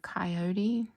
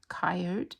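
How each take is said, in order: First: It uses the general, non-local pronunciation. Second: It uses the local regional pronunciation.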